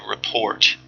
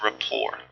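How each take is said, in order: First: The word sounds much like 'report'. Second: The word sounds like 'rapport', without a T. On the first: The speaker calls it wrong. "don't say report, because that sounds too much like report" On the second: The speaker calls it right. "But it's rapport"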